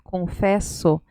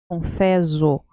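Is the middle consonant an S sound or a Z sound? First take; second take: S sound; Z sound. First: The middle consonant is a hissing s sound. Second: The middle consonant is a buzzing z sound. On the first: The speaker calls it right. "nosotros ponemos dos S y cambia la pronuncia" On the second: The speaker calls it wrong. "si fuera con una S, sería confeso, zo"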